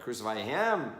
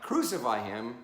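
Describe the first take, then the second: First: The stress falls on the word him. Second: The stress falls on the word crucify. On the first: The focus is on who is chosen to die. The speaker calls it right. "Him, not him, him" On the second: The focus is on what is done to him. The speaker calls it wrong. "Not crucify him"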